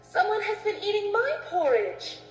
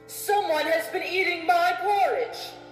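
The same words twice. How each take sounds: First: It is said in a medium-sized voice. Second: It is said in a big, deep voice.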